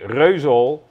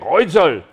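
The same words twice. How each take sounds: First: The name is said with a Dutch pronunciation. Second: The name is said with a German pronunciation. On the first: "We say Reuzel" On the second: "The Germans say Reuzel"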